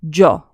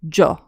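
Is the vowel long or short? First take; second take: short; short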